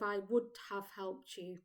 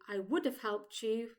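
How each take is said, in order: First: Every word of the phrase is said in full. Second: The phrase uses short contracted forms. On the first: "instead of" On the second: "we typically say"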